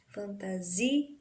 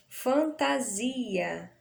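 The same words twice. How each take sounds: First: Fantasi... a, pausing before the last vowel; syllable break after ZI. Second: Fantasia slowly, with ZI drawn out; stress on ZI. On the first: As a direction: hold zi, then add a separate a in fantasia. (fantasia separando o A final depois do ZI) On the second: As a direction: stretch the zi in fantasia. (fantasia devagar, alongando a tônica ZI) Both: Shown as a demonstration. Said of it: "A gente tem aí o zi".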